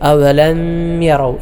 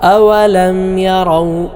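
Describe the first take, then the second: First: The m is nasalized and merged forward. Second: The m is pronounced clearly and separately. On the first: The speaker calls it wrong. "ചിലരൊക്കെ അവലം യറൗ ഇങ്ങനെ ഓതാറുണ്ട്" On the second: The speaker calls it right. "ഇൽഹാർ ചെയ്തുകൊണ്ട് വെളിവാക്കിയാണ് ഓതേണ്ടത്"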